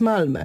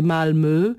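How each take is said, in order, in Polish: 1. Nazwa wymawiana jest po polsku. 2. Nazwa wymawiana jest po szwedzku. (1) "a dla nas to jest Malmö" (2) "w Szwecji jest miasto o nazwie Malmö"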